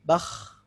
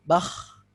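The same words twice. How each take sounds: Both takes have the same delivery.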